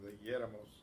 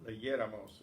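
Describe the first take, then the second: First: Said in the usual way. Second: Leyéramos with the stress on the yé syllable. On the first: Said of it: "Notice we want the stress on the same syllable". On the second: Shown as a demonstration. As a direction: hit yé in leyéramos clearly. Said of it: "we want the stress on the same syllable".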